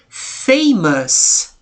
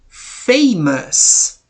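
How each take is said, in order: The two takes are said the same way.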